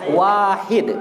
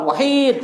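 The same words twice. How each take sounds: First: The first vowel is said long. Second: The first vowel is said short. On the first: The speaker calls it right. "Wahid yang betul" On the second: The speaker calls it wrong. "bukan wahid, salah"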